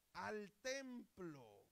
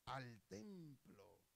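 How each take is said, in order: First: "Al templo" higher, each word stretched long; drawn-out, raised "Al templo", falling at the end; emphatic repeat. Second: Said in the usual way. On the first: Real, not acted. Preacher drives home the answer "Al templo", slowly and emphatically.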